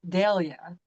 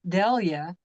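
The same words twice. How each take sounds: First: The first vowel is an 'ay' sound. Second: The first vowel is an 'ee' sound. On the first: This is how the person herself says the name. The speaker calls it right. "it's pronounced with an A sound" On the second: This is how most people say the name. The speaker calls it wrong. "Everybody calls her Delia"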